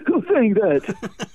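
It is said in a goofy cartoon character voice. Someone is mocking the original speaker.

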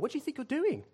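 It sounds genuinely curious and interested.

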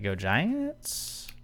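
It is said like a question, rising at the end.

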